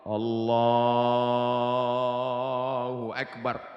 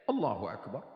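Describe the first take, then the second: First: The phrase is drawn out for a long time. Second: The phrase is said short and quickly.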